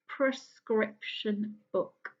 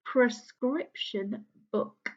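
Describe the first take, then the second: First: "Prescription book" slow and a bit softer; a careful second go at a hard word. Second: "Prescription book" slowed, every sound careful; carefully enunciating a tricky word. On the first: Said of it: "quite hard". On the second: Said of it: "quite hard to say". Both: Shown as a demonstration.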